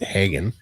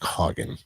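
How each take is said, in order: First: The first vowel is unlike the 'Haagen-Dazs' vowel. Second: The first vowel sounds like in 'Haagen-Dazs'. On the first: This is the common everyday pronunciation. "A lot of people pronounce it Hagen because it's a little more common name" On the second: This is the traditional German pronunciation with the umlaut. "it sounds like Hagen, like Haagen-Dazs ice cream"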